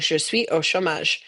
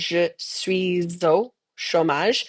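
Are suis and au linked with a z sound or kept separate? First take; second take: separate; linked. First: Suis and au are said without a link. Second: Suis links to au with a z sound. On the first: It sounds less fluent. The speaker calls it wrong. "instead of saying" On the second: It sounds more fluent. The speaker calls it right. "Make sure you make that liaison between the suis and the au"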